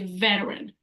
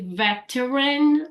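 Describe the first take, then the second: First: The middle T sounds like a soft D. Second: The middle T is a clear T sound. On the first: The speaker calls it right. "you say veteran" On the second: The speaker calls it wrong. "You don't need to say veteran"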